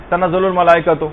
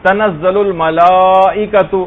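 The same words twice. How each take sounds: First: تنزل الملائکۃ read quick, the ملا kept short; without the madd. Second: تنزل الملائکۃ slow, the ملا drawn long; with the madd. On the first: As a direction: skip the madd, the wrong way. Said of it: "اس طرح سے پڑھ لیا، مد پڑھا ہی نہیں". (الملائکۃ کو بغیر مد کے جلدی پڑھنا) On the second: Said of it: "یہاں پر ایک مد ہے". (الملائکۃ میں مد کھینچ کر آہستہ پڑھنا) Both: Shown as a demonstration.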